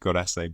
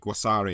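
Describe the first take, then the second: First: The word is said as 'gu-re-se'. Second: The word is said as three syllables, 'gua-sa-re'. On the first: The speaker calls it wrong. "I used to pronounce it Gurese" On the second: The speaker calls it right. "Guasare is the way you pronounce it"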